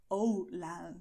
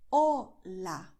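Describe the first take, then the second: First: "hola" as "oh-lah" with a gliding English O; strong English accent. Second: "hola" loud and clear, pure O and A, silent H; native Spanish pronunciation. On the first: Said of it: "a strong English accent would say". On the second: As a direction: model "hola" emphatically with Spanish vowels. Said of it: "So you will say". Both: Shown as a demonstration.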